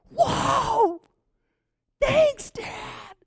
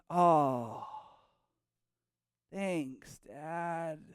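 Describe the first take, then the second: First: It sounds thrilled and excited. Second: It sounds polite but unexcited.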